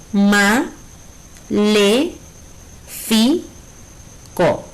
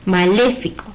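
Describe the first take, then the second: First: MA, LE, FI, CO with long pauses between; teacher splitting maléfico into separate beats; syllable by syllable. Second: Said in the usual way. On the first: Shown as a demonstration. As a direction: dole out ma, le, fi, co one at a time. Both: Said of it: "Si la separamos en sílabas".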